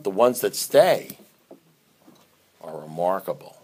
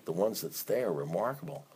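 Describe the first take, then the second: First: Dramatic pause before remarkable. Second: Said in the usual way. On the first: Shown as a demonstration. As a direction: hold back on stay, let remarkable drop.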